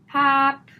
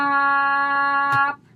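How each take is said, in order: First: The word is cut very short. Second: The word is stretched out very long.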